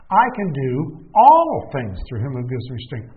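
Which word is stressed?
do. The word "do" carries the emphasis.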